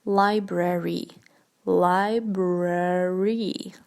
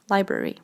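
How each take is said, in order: First: Library drawn out, LAI-BRE-REE with both Rs; library slowly, each R clearly sounded; specific R. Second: Said in the usual way. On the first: Shown as a demonstration. Teacher pointing learners to the R in library, slow and exaggerated. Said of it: "how specific the R is".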